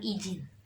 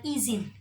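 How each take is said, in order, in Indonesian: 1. Konsonan di tengah itu bukan bunyi z. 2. Konsonan di tengah itu bunyi z yang jelas. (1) "bukan izin" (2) "I Z I N, diucapkan izin"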